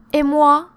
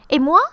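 First: "Et moi" high and loud, held without a questioning rise; falling intonation. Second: "Et moi" higher and louder, rising sharply on "moi"; real question. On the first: Person who wanted a cinema invitation, left-out falling intonation. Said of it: "Here, falling intonations". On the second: Helper asking what am I doing, rising question. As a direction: lift "moi" high to ask. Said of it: "it's a real question". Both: Shown as a demonstration.

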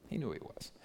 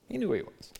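First: Quiet echo. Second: Emphatic high. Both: Acted. Repeats the line twice.

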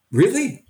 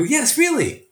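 First: High-pitched questioning disbelief; incredulous, raised-pitch query; doubtful question. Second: High, insistent reassurance; acted-out emphatic yes, pitched high; emphatic confirmation. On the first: Retold or imitated. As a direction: imitate a sceptical young trainee asking. Young teachers question his advice. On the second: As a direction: confirm it firmly to a doubter. He answers the doubting trainees.

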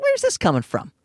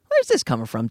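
First: Puzzled question in a much higher voice; high mock bewilderment; high-pitched questioning. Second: Lowered, probing repeat; low-pitched questioning. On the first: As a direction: ask it way up high, taken aback. Acted question to departing friend, first take. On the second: Retold or imitated.

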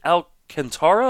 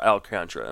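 First: Alcantara said in four syllables, al-can-TAR-a; longer pronunciation of Alcantara. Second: Alcantara said like al-CON-tra; shorter pronunciation of Alcantara. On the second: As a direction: squeeze Alcantara into three syllables, al-CON-tra. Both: Shown as a demonstration. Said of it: "is it Alcantara or Alcantara".

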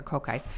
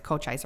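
First: "Cochise" with a hard K in the middle. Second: "Cochise" with CH as in church. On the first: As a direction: say "Cochise" as koh-KICE. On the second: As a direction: say "Cochise" as koh-CHICE. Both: Real, not acted. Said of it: "I don't know how you say it".

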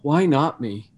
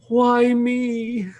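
First: Steady, matter-of-fact question; calm reframe. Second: High, whiny self-pity. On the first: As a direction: ask it calmly, no self-pity. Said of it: "switch that ever so subtly to". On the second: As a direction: whine it like a sulking victim. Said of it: "Kind of in a whiny voice". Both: Retold or imitated.

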